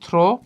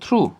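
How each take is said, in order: First: The word ends with an 'oh' vowel. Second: The word ends with an 'oo' vowel. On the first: The speaker calls it wrong. "এটার উচ্চারণ অনেকেই করি থ্রো" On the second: The speaker calls it right. "এটার উচ্চারণ আমরা করবো থ্রু"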